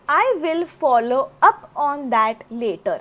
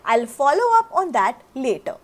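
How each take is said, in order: First: "I will" is said as two full words. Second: "I will" is shortened to one syllable.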